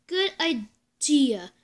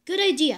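First: Slow, drawn-out good idea. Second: Said in the usual way. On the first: Acted. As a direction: stretch out good idea lazily.

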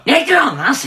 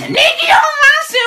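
First: Said in the usual way. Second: "Nederlandse" very high and slow; mocking drawl. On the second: Shown as a demonstration.

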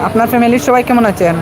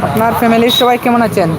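No difference in how they are said.

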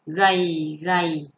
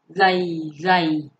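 First: "Gầy gầy" said slowly and low, with the falling tone and rhyme ay; low slow teacher model; careful pronunciation. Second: "gầy gầy" called out low; name "gầy gầy" for underlining; first listing; word listed for pupils. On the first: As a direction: drag out "Gầy gầy" for pupils. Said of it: "Các em chú ý, vần A". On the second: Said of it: "Các em chú ý cho cô từ". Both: Shown as a demonstration.

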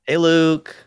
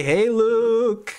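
First: Bright high hey to Luke; playful high call to a neighbor on stream; playful greeting. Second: Chat shout-out. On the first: Pretend. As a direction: say hi to Luke like a cheerful chat. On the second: Shown as a demonstration. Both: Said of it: "Everyone say".

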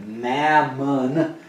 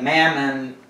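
First: Mammon stretched out in two careful syllables; careful sounding out. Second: Said in the usual way. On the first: Real, not acted. Preacher testing a word that is hard to say, careful sounding out. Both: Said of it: "it's hard to say".

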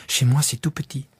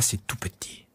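First: Put-on higher young voice, "moi" lifted; childlike stress on moi. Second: "c'est tout petit" breathed as a soft whisper. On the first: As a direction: Chez moi said brightly by the child. Prince stresses tiny home. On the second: Acted. Prince whispers tiny home.

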